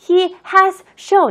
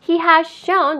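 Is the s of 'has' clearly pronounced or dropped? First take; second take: clear; dropped. First: Both s sounds are pronounced separately and clearly. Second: The s of 'has' is almost dropped. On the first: "굳이 여러분들이 힘들게 he has shown 이렇게 하지 않고" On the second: "이렇게 계속 읽었죠?"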